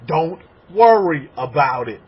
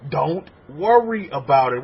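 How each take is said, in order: First: Slow and louder, leaning on worry; firm reassurance. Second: Slow and easy, settled on worry; gentle reassurance. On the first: Rabbi telling the congregation to stop worrying, firm and slow. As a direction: tell the congregation firmly not to worry. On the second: Rabbi repeating his advice more gently, calm and slow. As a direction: ease them into letting go. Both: Shown as a demonstration.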